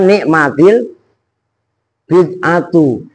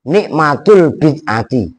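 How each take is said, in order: First: The first word ends in -til, the second in -tu. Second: The first word ends in -tul, the second in -ti. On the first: The speaker calls it right. "karena tak sukun bertemu al, kan dibaca" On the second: The speaker calls it wrong. "saya pernah mendengar penceramah"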